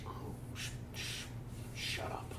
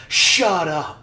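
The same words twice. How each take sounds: First: Very soft, halting whisper; whispered catchphrase. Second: Loud, high cut-off shout; shouted catchphrase. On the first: Friend repeating the college saying, faintly whispered. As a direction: shush them in a tiny whisper. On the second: Friend re-enacting a college saying, loud mock shout. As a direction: blurt it out to shut someone down. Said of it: "We had a saying". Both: Acted.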